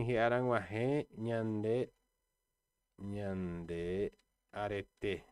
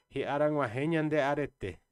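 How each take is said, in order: First: Ri ara nguarré nhande arete, slow and broken into pieces, nguarré rising; slow teaching read. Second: Said in the usual way. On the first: Shown as a demonstration. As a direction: dictate it word by word to the class. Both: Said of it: "vou até colocar aqui uma frase".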